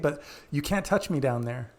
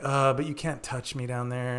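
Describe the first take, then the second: First: It is said in a light, playful tone. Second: It is said in a heavy, awkward tone.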